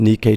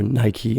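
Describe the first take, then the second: First: "Nikkei" said as NEE-kay; unsure pronunciation. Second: "Nike" said as NAI-kee; alternative pronunciation. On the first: Host naming the Tokyo index, "Nikkei" as NEE-kay. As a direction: say "Nikkei" with an ee first and an ay ending. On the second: Host guessing at the index name, "Nike" as NAI-kee. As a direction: say "Nike" like the shoe brand, eye then ee. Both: Real, not acted. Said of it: "I don't know how to pronounce this".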